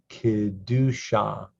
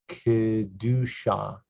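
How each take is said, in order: The two takes are said the same way.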